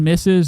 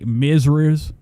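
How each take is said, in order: First: The word is said with s sounds. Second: The word is said with z sounds and an r. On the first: "Instead of saying Missus" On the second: "they would say Mizriz"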